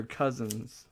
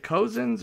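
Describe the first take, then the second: First: "Cousins" with the first vowel as in "cup"; CUZ-ins for "Cousins"; short U in Cousins. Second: "Cozens" with the first vowel as in "go"; COH-zens for "Cozens"; long O in Cozens. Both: Shown as a demonstration. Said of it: "Is it Cozens or Cousins?".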